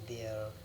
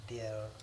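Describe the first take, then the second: Both takes have the same delivery.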